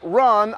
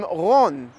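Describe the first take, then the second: First: The name is said with an English R. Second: The name is said with a Hebrew R.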